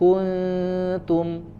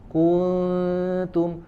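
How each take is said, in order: First: The first vowel is short and moves straight on. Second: The first vowel is drawn out longer. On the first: The speaker calls it right. "kun dari kaf harusnya langsung pindah ke makhraj huruf nun" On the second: The speaker calls it wrong. "Jadi ku-nya dipanjangkan"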